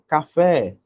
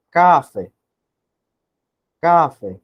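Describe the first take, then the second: First: "café" with a long, stressed "FÉ"; stress on final syllable. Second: "café" stressed hard on the first syllable, CÁ-fe; misplaced stress. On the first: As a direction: say ca-FÉ, weight on the last syllable of "café". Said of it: "ah, tá mais certo". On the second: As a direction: punch "ca" in "café" and let "fé" drop. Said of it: "Tá esquisito". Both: Shown as a demonstration.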